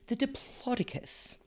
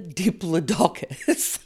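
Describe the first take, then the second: First: The main stress falls on the 'plod' syllable. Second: The main stress falls on the 'doc' syllable. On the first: The speaker calls it right. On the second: The speaker calls it wrong.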